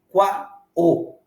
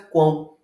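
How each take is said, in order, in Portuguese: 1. O "o" é uma vogal plena, formando uma sílaba separada. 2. O "o" desliza como "u", dentro de uma mesma sílaba. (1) "você não pronuncia qua o" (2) "você pronuncia quão. O O tem som de U"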